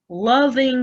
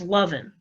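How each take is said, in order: First: The ending is said with a full 'ing' sound. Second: The ending is said as 'in', g dropped.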